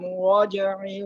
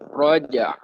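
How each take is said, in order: First: The word ends with a short 'i' vowel. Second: The word ends with a bouncing 'a' sound. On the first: The reading runs on into the next verse. "dilangsungkan memang ya dibaca roja'i" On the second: The reading stops at the end of the verse. "kalau disukunkan atau diwakafkan karena dia akhir ayat"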